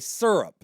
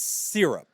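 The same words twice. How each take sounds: First: The first syllable sounds like 'sir'. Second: The first syllable sounds like 'seer'. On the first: The speaker calls it wrong. "S Y is not sir" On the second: The speaker calls it right. "It's syrup"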